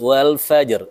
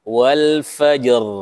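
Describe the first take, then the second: First: The r sound is light and thin. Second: The r sound is held somewhat longer. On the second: "agak lebih panjang"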